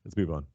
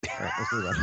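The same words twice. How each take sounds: First: Said in the usual way. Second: Very high, silly falsetto; squeaky mock voice. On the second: Host moving the show on, in a squeaky falsetto. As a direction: squeak it out like a cartoon. Joking way to change topic.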